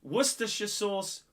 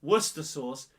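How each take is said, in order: First: Worcestershire as "wuss-ter-shuh"; Worcestershire sauce as "WUSS-ter-shuh sauce"; correct full name. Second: Worcester as "wuss-ter", no "shuh"; Worcester sauce as "WUSS-ter sauce"; wrong short name. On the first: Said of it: "If you're calling Worcestershire sauce". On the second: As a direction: leave out the shire, saying Worcester as "wuss-ter". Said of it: "totally wrong". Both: Shown as a demonstration.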